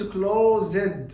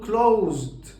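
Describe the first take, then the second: First: The ending has a vowel before the d. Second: The ending is a plain d with no vowel. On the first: The speaker calls it wrong. "ما بقولش closed غلط" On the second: The speaker calls it right. "بقول closed"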